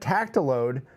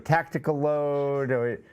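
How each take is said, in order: First: It is said as three syllables, tac-ti-lode. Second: It is said as four syllables, tactical load. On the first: The speaker calls it right. "thanks for pronouncing it correctly" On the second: The speaker calls it wrong. "we we go tactical load"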